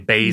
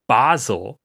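First: The first vowel is a long 'ay'. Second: The first vowel is a long open 'ah'. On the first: Americans say it this way. "whereas we'd say Basel" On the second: Nobody actually says it this way. "I don't think anyone's saying Basel"

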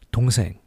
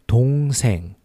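First: It is said faster. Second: It is said slowly.

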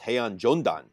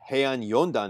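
First: The second word begins with a J sound. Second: The second word begins with a Y sound. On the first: The speaker calls it wrong. "the Spanish pronunciation of Y? It's J" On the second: The speaker calls it right. "it's not Heian Yondan"

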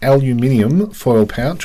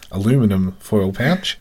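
First: It is said the Australian way, 'aluminium'. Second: It is said the American way, 'aluminum'.

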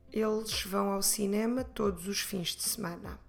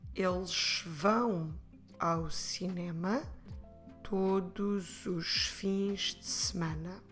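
First: It is said a little faster. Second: It is said at a normal speed.

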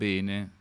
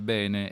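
First: The stressed E is a closed vowel. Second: The stressed E is an open vowel. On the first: This is how northerners say it. The speaker calls it wrong. "e non bene" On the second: This is the standard pronunciation. The speaker calls it right. "si dice bene"

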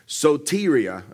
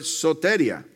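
First: The word is said without a Hispanic accent. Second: The word is said with a Hispanic accent. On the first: "I believe is how you say it"

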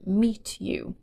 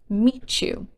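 First: The t and y are kept separate. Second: The t and y merge into ch.

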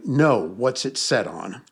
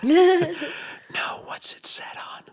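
First: It is said in a normal voice. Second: It is said in a whisper.

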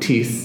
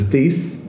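First: The name is pronounced the French way. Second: The name is pronounced the English way. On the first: The speaker calls it wrong. "I was mispronouncing his name because having taken French for many years, I was going Thies" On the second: The speaker calls it right. "but it's Thies"

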